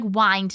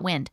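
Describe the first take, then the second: First: The vowel is a long 'eye' sound. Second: The vowel is a short 'i' sound. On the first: It means to twist or turn. The speaker calls it right. "So it's more like wind" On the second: It means moving air. The speaker calls it wrong. "not wind"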